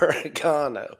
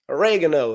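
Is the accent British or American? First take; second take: British; American. First: It is said in a British accent. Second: It is said in an American accent.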